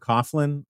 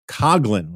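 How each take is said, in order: First: The first syllable does not sound like 'cog'. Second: The first syllable sounds like 'cog'. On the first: "And I always heard Coughlin" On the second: "you pronounce it Coughlin, like Cogsley's Cogs from the Jetsons, Lynn"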